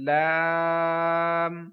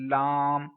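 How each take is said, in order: First: The word is said without nasal voice. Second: The word is said with a nasal voice. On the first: The speaker calls it right. "नाक में अब, आ, आवाज नहीं लेकर गया" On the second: The speaker calls it wrong. "नाक में आवाज ले जाते हैं, जो कि दुरुस्त नहीं है"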